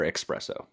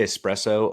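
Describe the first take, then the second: First: Espresso said as "ex-PRESS-oh"; X pronunciation. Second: Espresso said with an S, "es-PRESS-oh"; standard pronunciation. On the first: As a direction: put a K-S sound at the start of "espresso". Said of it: "I put in an X". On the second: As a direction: say "espresso" with no K sound. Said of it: "Do you say espresso or". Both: Shown as a demonstration.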